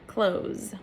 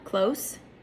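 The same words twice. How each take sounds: First: The word ends with a buzzing Z sound. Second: The word ends with a hissing S sound. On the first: It means to shut or stop. "close with a Z sound" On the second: It means near in space, time or relationship. "close with an S sound"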